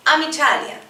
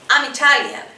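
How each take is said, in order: Both takes have the same delivery.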